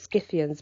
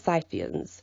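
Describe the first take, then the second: First: The word begins with a hard K sound. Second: The word begins with a soft S sound. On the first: It follows the Latin pronunciation. "I pronounce it Scythians ... the C is generally pronounced as a K in Latin" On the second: It is the other possible pronunciation. "but it could be Scythians"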